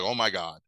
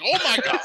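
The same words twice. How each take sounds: First: Low, unexcited imitation of her delivery; dropped-pitch deadpan exclamation. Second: Very high, louder squeal; hammed-up panicky exclamation; mock hysterical shock. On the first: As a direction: say it with no reaction at all. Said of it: "she deadpans everything". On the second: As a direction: squeal it in exaggerated horror. Mimics her reaction at gunpoint.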